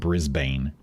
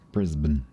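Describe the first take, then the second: First: The last syllable has a full vowel. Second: The last syllable has a reduced vowel. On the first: The speaker calls it wrong. "as opposed to saying Brisbane" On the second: The speaker calls it right. "Remove all the vowels"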